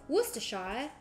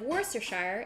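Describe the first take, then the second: First: The word is said with a British accent. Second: The word is said without a British accent. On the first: "if you say it with a British accent" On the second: "instead of"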